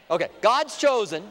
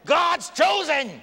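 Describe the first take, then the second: First: Loud but calming; reining it in a little. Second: Can't hold it in, cry it out; slow fervent exclamation; fervent shout. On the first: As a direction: still loud but steadier, stress on gods. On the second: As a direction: burst out high and loud, drawn out. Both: Real, not acted. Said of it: "trying to calm myself down".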